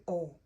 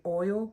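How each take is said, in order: First: Oil flattened to AWL; oil said like all, no oy glide; Southern drawled oil. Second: Oil said as full OY-ul; oil with a clear oy diphthong; careful standard oil. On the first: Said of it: "we say oil". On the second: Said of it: "we don't say oil". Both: Shown as a demonstration.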